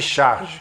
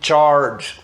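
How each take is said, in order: First: The word is said with Portuguese pronunciation. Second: The word is said with English pronunciation. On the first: This is how the name is said in Brazil. "quando você estiver no Brasil, chama o chocolate de charge" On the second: This is how the word is said in the United States. "Quando você estiver nos Estados Unidos, você chama de charge"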